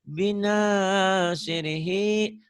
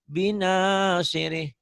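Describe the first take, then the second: First: The word ends with a final vowel. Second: The word ends without its final vowel.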